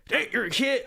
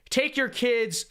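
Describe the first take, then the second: First: Put-on higher, half-hearted Australian accent; attempted Australian accent. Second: Said in the usual way. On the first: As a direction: try an Australian accent and give up. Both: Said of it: "I can't do an Australian accent".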